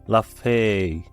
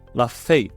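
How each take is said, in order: First: The vowel in fée is open. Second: The vowel in fée is closed. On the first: The speaker calls it wrong. "ليس la fée" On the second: The speaker calls it right. "أنني نطقتها la fée"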